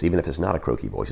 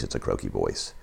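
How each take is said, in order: First: Said in the usual way. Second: Much lower, softer croak; croaky voice. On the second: Shown as a demonstration. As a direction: let it croak out low and quiet. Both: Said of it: "Jay's croaky voice".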